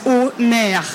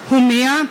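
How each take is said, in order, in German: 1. Der Name wird französisch ausgesprochen. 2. Der Name wird deutsch ausgesprochen.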